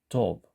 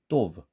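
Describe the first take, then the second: First: The first consonant is softer, closer to a t. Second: The first consonant is a hard, tense sound. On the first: "약간 티읕처럼 발음하려고 하는 쌍디귿은" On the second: "우리말로 강한 경음으로 내면"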